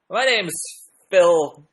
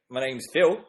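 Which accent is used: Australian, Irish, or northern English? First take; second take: Irish; Australian. First: It is spoken in an Irish accent. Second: It is spoken in an Australian accent. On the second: "one more Australian"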